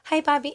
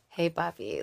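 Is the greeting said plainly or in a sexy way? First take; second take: plainly; sexy. First: It is said in a plain, non-sexy way. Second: It is said in a sexy, flirtatious way.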